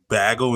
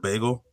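First: The first vowel sounds like in 'bag'. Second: The first vowel sounds like in 'bay'. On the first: The speaker calls it wrong. "people who say bagel" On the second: The speaker calls it right. "instead of bagel"

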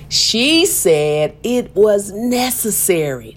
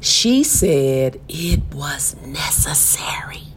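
First: It is said loudly. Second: It is said at normal volume.

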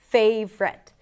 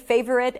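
First: The word is said with two syllables. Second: The word is said with three syllables. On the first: "people usually pronounce it in two syllables rather than three" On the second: "You can totally say favorite and it's going to be legit"

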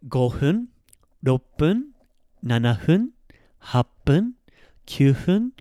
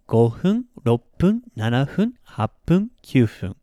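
First: The list is said at a normal pace. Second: The list is said a little faster.

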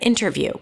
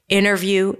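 First: The T after the N is pronounced. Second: The T after the N is dropped. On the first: "instead of interview" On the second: "interview instead of"

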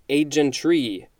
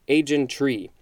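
Both takes have the same delivery.

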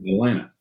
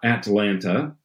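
First: The second t is dropped or softened. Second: The second t is clearly pronounced. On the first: The speaker calls it right. "It's Toronto and Atlanta. All ends. Maybe a slight D" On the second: The speaker calls it wrong. "It's not Atlanta"

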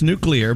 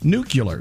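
First: The word is said as nu-clear. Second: The word is said as nu-cu-lar. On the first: The speaker calls it right. "It's nuclear" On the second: The speaker calls it wrong. "a lot of people used to say, and still say"

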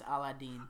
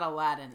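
First: The name is said with its original, non-American pronunciation. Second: The name is said with an Americanized pronunciation. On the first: The speaker calls it right. "It's Aladdin" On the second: The speaker calls it wrong. "It's not Aladdin"

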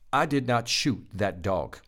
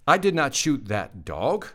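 First: The voice falls at the end. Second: The voice rises at the end. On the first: The speaker states a fact. "That's a plain statement" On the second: The speaker is asking. "Question mark"

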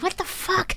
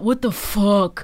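First: It sounds amazed and delighted, like 'wow'. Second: It sounds exasperated and negative, not delighted. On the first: Something is wonderfully surprising. The speaker calls it right. "it's like, wow" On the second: Something is annoying or bad. The speaker calls it wrong. "instead of well"

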